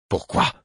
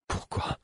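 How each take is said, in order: First: Said in the usual way. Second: Hushed, shaking question; trembling whisper. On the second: A narrator's reading. Narrator whispers the question, trembling. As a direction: breathe it out, trembling. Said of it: "tremblant de la tête aux pieds".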